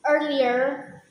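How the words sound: It is said in an American accent.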